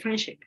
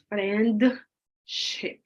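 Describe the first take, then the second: First: The D sound in friendship is left out. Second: The D sound in friendship is clearly pronounced. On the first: The speaker calls it right. "You say friendship" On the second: The speaker calls it wrong. "You don't say friendship"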